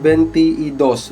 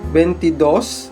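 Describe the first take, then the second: First: It is said as separate words with 'y'. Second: It is said as one joined word. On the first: The speaker calls it wrong. "We don't say that" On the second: The speaker calls it right. "We just combine it to make it a one word"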